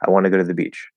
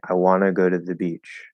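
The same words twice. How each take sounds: First: The sentence is said at normal speed. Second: The sentence is said slowly and deliberately.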